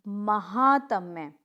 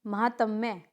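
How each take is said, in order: First: महातम्य very slowly, long "haa"; correct pronunciation. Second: महातम्य quickly, with a short middle "ha"; incorrect pronunciation. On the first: Teacher correcting the class, महातम्य drawn out. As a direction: stretch महातम्य as ma-haaa-tam-ye. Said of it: "महातम्य होगा". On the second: Teacher showing a mistake, महातम्य with unstretched vowels. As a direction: say महातम्य as ma-ha-tam-ye. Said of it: "नहीं". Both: Shown as a demonstration.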